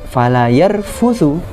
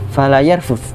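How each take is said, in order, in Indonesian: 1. Kata terakhir berakhir dengan vokal akhir 'u'. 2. Kata terakhir berakhir tanpa vokal akhir. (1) "maka orang yang berpuasa tidak melakukan rofas" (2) "jangan berbuat rofas"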